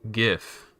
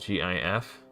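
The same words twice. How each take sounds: First: It begins with a soft G sound. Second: Each letter name is spoken separately. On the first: "others pronounce it with a soft G" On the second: "as an initialism, speaking the name of each letter"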